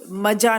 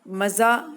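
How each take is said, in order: First: The middle consonant is a plain 'j' sound. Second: The middle consonant is a buzzing 'z' sound. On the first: The speaker calls it wrong. "मजा नहीं बोलेंगे इसे" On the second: The speaker calls it right. "तो मजा है ये"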